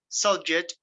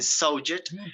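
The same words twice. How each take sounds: First: The stress is on the first syllable. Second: The stress is on the second syllable. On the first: It names a topic. "it's a noun" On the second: It names an action. "it's a verb"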